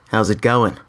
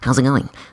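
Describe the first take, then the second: First: The voice sounds bold and confident. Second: The voice sounds shy and unconfident. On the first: The character is self-assured. "I'm gonna sound very confident, maybe like some like sexy guy" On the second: The character is insecure. "Maybe hunching up your shoulders"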